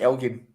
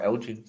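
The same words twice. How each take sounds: First: "Elgin" with g as in give; hard-g pronunciation. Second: "Elgin" with g as in gem; soft-g pronunciation. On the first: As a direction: say "Elgin" like EL-ghin. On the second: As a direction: say "Elgin" like EL-jin. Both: Shown as a demonstration. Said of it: "I don't know if you pronounce it".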